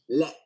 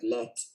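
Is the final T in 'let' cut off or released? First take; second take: cut off; released. First: The final T is cut off, not released. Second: The final T is clearly released. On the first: The speaker calls it right. "You say it like this. Let, like that" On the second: The speaker calls it wrong. "I didn't say it like let"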